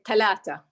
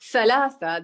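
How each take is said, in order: First: The consonants are said as t sounds. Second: The consonants are said as th sounds. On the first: This is how speakers in the Hijaz say it. "they say talata" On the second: This is how speakers in Najd say it. "instead of saying thalatha"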